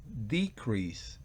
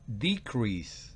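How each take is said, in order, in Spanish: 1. Se da la pronunciación del sustantivo. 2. Se da la pronunciación del sustantivo.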